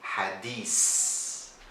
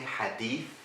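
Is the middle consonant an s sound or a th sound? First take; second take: s; th. First: The middle consonant is an s sound. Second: The middle consonant is a th sound. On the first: This is the Egyptian Arabic form. "we say hadis" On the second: This is the Standard Arabic form. "Instead of saying hadith"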